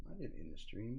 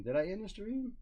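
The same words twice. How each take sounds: First: Low, soft "I didn't end the stream"; dismissive denial. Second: High, rising "Did I end the stream?"; incredulous question. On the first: Streamer rejects a viewer's claim, low dismissive denial. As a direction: drop the voice to deny it, weight on "didn't". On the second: Streamer questions a viewer's claim, incredulous rising question. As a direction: lift "stream" into a questioning rise. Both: Real, not acted.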